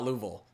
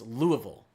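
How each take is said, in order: First: It is said with a regional accent. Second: It is said without the regional accent. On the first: The speaker calls it wrong. "it is definitely not Louisville. That's an accent" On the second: The speaker calls it right. "It's Louisville"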